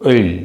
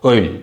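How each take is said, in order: No difference in how they are said.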